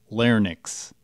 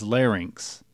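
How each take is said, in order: First: The word is said as lar-nix. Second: The word is said as lar-inks. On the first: The speaker calls it wrong. "not larynx" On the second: The speaker calls it right. "the correct pronunciation is larynx"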